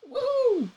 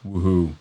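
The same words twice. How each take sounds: First: It is said in a normal voice. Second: It is said in a deep voice.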